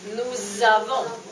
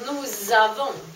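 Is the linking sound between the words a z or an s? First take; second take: z; z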